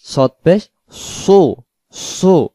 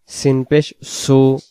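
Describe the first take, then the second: First: সদ পেশ সু with a thick, rounded "soo"; round-mouthed heavy Sad. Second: সিন পেশ সু with a thin "s" before "u"; slow, light সু; light Sin. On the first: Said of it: "মুখটা গোল করে পড়তে হবে". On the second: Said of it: "সিনের বেলা সিনের মতো". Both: Shown as a demonstration.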